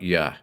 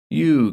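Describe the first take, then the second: First: The word ends in a reduced 'uh' vowel. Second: The word ends in a full 'oo' vowel.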